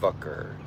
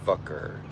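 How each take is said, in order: First: It is said in a mainland American way. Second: The same.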